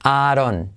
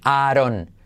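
Both takes have the same delivery.

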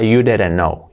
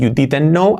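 First: The T in didn't disappears; soft D. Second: The T in didn't is clearly pronounced. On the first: "la T que hemos dicho se esfuma, desaparece" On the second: "Cambia de decir"

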